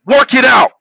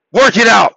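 No difference in how they are said.

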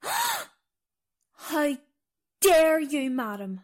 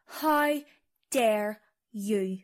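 First: Theatrically affronted, starting high; mock indignation. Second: Understated affront, falling in pitch; subdued mock offence; wounded indignation. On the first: Guide offended by mistake about country. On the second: Offended guide repeats herself, subdued.

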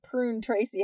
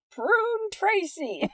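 First: Said in the usual way. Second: "Prune Tracy" stretched slowly, pitch high; drawn-out name. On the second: Pretend. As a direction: say "Prune Tracy" slow and lilting, savoring it. Savoring the reviewer's funny name.

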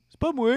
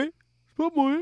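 First: A little higher, innocent protest; half-hearted imitation of a denial; mock denial. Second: Much higher, pleading repeat; hammed-up higher plea of innocence; mock whiny denial. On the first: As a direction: lightly play the guilty man denying it. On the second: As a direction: push the denial up into a whine. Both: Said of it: "il dit".

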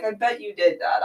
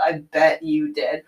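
First: Dry knowing jab at dad; mildly sarcastic first take. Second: Drawn out, lower and slower, knowing; lower, slow sarcastic echo; slower sarcastic repeat. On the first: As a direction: tease him, you know what he did. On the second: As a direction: let the second one sink in slowly. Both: Retold or imitated.

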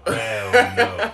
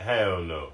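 First: Laughing shout. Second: Said in the usual way. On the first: Real, not acted. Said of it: "repeated louder, laughing". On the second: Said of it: "repeated reaction".

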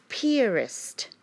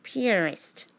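First: Piarist said as pee-AR-ist, like pianist with an R. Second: Piarist said slowly as pee-ar-ist. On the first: Spelling out Piarist for a listener. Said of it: "like a pianist, but with an R". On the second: Repeating Piarist so a listener gets it. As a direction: land clearly on Piarist with the R. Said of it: "but with an R". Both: Shown as a demonstration.

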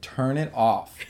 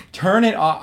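First: First, restrained order to switch it off; retold demand, held below a yell; firm but not yet shouting. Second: High, loud mock tantrum; escalated, high-pitched shouted demand; retold scream. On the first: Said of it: "and I said". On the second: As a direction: yell the order in a dramatic retelling. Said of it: "I started screaming".

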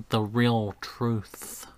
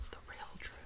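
First: Said in the usual way. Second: Hushed, whispered echo of a title; spooky whisper. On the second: Pretend. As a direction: whisper it like a secret.

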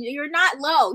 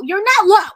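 First: Said in the usual way. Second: Louder, higher-pitched call-out; playful shout. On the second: Acted. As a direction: punch it out loudly at Adam. Playfully calling out Adam Cole.

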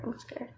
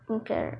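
First: Much softer repeat, almost to herself; scared, quieter. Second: Said in the usual way. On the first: Real, not acted. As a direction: drop the voice on the repeat.

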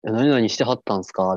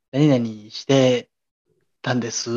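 First: 何々してはったんすか with the Kansai はった; wrong Kansai honorific. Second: 何々してたんです said slowly and carefully without はった; correct standard form. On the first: Telling a senior's story, Kansai はった form. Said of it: "はったはあかん". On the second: Correcting the junior, slow standard 何々してたんです. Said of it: "みたいな". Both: Shown as a demonstration.

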